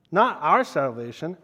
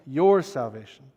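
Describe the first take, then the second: First: "our" lifted with a rising tune; stress on our. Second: "your" pressed down with a falling tune; stress on your. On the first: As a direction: lean on "our", then let it hang. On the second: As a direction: land firmly on "your". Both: Shown as a demonstration.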